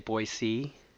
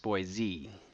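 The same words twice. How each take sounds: First: The name is said the way locals say it. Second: The name is said the way outsiders say it. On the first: This is how people from the city say it. "The locals usually say Boise" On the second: This is how people from elsewhere say it. "everyone else in the world says Boise"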